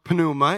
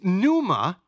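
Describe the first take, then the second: First: The initial p is sounded. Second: The initial p is silent.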